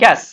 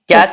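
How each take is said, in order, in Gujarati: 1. શબ્દ 'sh' અવાજથી અંત પામે છે. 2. શબ્દ 'ch' અવાજથી અંત પામે છે. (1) "ପ୍ରୋନାଉନସିଏସନ ସ ହିଁ ଆସିବ" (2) "ଆରେ ନାଇଁ କ୍ୟାଶ ମେମୋରି ହେଲା।"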